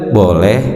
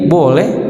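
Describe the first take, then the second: First: The word is said in a calm, gentle voice. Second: The word is said in a raised, sharp voice. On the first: The permission is given willingly. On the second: The permission is given reluctantly or with irritation.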